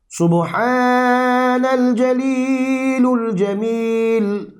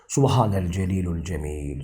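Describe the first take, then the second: First: It is recited slowly and melodiously. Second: It is recited quickly and plainly. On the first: "böyle makamlı okumayı, yavaş yavaş okumayı" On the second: "daha seri okuduğunda"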